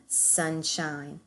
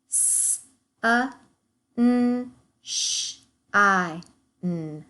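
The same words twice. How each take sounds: First: Said in the usual way. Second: S-A, N, sh-I, n split into sounds with pauses; segmenting sounds. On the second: Shown as a demonstration. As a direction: break Sunshine into its sounds. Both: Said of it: "segment the rest of our words".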